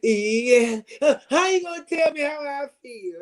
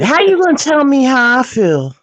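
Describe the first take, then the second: First: High-pitched mocking imitation; exaggerated high whine, teasing her; mimicking her. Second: Higher, louder mock-offended retort; high-pitched indignant protest; indignant comeback. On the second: Real, not acted. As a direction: push back, pitched up high and loud. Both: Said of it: "'Cause she said".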